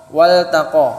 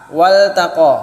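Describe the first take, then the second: No difference in how they are said.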